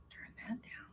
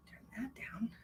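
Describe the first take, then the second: First: Breathy whispered order, barely voiced. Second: Said in the usual way. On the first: Real, not acted. Whispering to someone nearby to turn the sound down. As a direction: hush it out under the breath.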